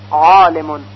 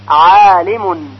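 First: The long a is heavy and full. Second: The long a is light and thin. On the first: The speaker calls it wrong. "گفته نمیشه ... غلط هست" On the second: The speaker calls it right. "مثل عالمون"

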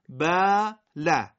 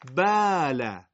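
First: The first vowel is short and clipped. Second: The first vowel is long and drawn out. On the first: The speaker calls it right. "ولی لام مفتوح کوتاه خونده میشه باله" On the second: The speaker calls it wrong. "این میشه لهجه فارسی باله. میبینید صدا کشیده شده دیگه، کوتاه نیست"

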